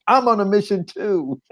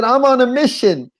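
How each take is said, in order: First: Echoing comeback. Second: High, emphatic retort; insistent declaration. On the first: Prostitute's echoing comeback acted out. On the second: Man refusing prostitute while searching for mother, high insistent declaration. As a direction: declare it urgently, pitched way up. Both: Retold or imitated.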